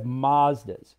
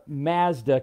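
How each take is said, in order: First: "Mazdas" with ah, as MAHZ-duhs; American pronunciation. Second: "Mazda" with short a as in cat; Canadian pronunciation. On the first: Showing Canadians the US way, "Mazdas" as MAHZ-duhs. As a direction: say "Mazdas" the US way, with a broad ah. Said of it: "in the United States. We have". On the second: Teasing Canadians about car names, "Mazda" with a flat Canadian a. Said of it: "you guys say differently in Canada". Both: Shown as a demonstration.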